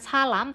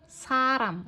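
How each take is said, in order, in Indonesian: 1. Konsonan di tengah bunyinya seperti L. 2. Konsonan di tengah bunyinya seperti R. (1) "jangan salam" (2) "tapi saram"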